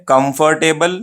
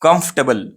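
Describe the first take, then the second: First: "कंफर्टेबल" as kum-far-TAY-bul; full syllables, clear "table" in "कंफर्टेबल"; broken up. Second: "कंफर्टेबल" as quick KUMF-tuh-bul; said quickly, right. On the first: Teacher reviews the wrong way, "कंफर्टेबल" broken into parts. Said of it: "अगर इसको आप तोड़ के बोले". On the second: Teacher reviews the right way, quick compact "कंफर्टेबल". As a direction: run together without "er" in "कंफर्टेबल". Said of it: "अगर इसको तेजी से बोले आप". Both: Shown as a demonstration.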